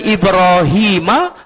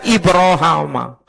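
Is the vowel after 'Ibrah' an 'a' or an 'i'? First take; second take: i; a. First: The vowel after 'Ibrah' is a long 'i'. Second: The vowel after 'Ibrah' is a long 'a'. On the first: "bisa dibaca Ibrahima" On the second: "bisa dibaca Ibrahama"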